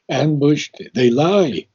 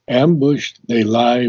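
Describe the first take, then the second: First: The word 'lie' carries a strong accent. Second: The word 'lie' carries no strong accent. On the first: The speaker calls it wrong. "accent lie so strong" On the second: The speaker calls it right. "We didn't have to accent lie so strong"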